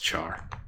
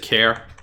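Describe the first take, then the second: First: The word begins with a ch sound. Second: The word begins with a k sound. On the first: The speaker calls it right. "It's char" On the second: The speaker calls it wrong. "does anybody pronounce it care?"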